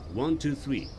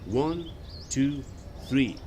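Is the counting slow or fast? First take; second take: fast; slow. First: The numbers are counted at a faster pace. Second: The numbers are counted at a slower pace.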